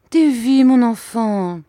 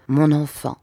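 First: High, louder tender plea, mon enfant drawn out; a mother reaching for her child, pleading. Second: Said in the usual way. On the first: Acted. Mother coaxing her crying boy, high tender plea. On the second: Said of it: "ces simples mots".

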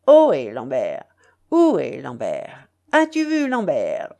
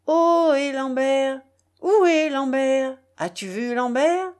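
First: Loud call, each phrase swooping down; parting cry. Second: Wild street cry. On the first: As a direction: call out loudly with falling cadence. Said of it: "cria-t-il pour la dernière fois". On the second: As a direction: call out high and sustained, rising at the end. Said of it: "son cri sauvage retentissait". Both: A narrator's reading.

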